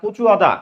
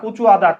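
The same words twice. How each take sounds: Both takes have the same delivery.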